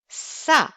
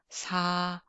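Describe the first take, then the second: First: The s is tense, with more energy and pressure. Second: The s is soft and gentle, with little pressure. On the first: "You have a more energy on this sounds" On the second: "soft, gentle sound"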